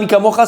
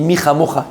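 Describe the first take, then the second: First: The first word has a hard k sound. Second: The first word has a throaty kh sound. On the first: The speaker calls it wrong. "Ne dis pas Mika Mocha, c'est une erreur" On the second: The speaker calls it right. "On dit Micha Mocha"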